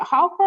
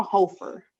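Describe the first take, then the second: First: "Hofer" with an open "ah" in the first syllable; first vowel of "Hofer" open, as in "hot"; short-o pronunciation. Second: "Hofer" with a long "oh" in the first syllable; first vowel of "Hofer" rounded, as in "hope"; long-o pronunciation. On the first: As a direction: say "Hofer" like "HAH-fer". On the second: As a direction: say "Hofer" like "HOH-fer". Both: Shown as a demonstration. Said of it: "is it Hofer or Hofer?".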